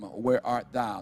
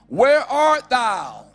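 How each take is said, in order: First: It is read in a normal speaking voice. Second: It is called out loudly with a raised voice.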